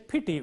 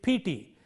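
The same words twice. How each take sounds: First: Both vowels are said short. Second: The vowels are lengthened. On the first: The speaker calls it right. "with two short vowels" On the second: The speaker calls it wrong. "You can't say it"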